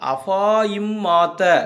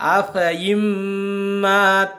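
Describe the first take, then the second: First: The vowel after f is drawn out long. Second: The vowel after f is cut short. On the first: The speaker calls it wrong. "அந்த அலிஃபை உச்சரித்திருந்தால்" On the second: The speaker calls it right. "அந்த அலிஃபை உச்சரிக்காமல் விட்டுவிட்டு ஓத வேண்டும்"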